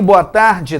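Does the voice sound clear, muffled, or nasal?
nasal. The voice is nasal, through the nose. "voz anasalada"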